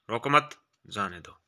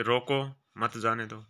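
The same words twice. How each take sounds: First: रोको मत run together, then a clear break before जाने दो; pause after मत. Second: रोको, then a pause, मत जाने दो run together; pause after रोको. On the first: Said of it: "तो अर्थ का अनर्थ हो सकता". (मत के बाद विराम) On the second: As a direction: break right after रोको, keep मत with जाने दो. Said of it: "उचित स्थान पर इसका प्रयोग न किया जाए". (रोको के बाद विराम) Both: Shown as a demonstration.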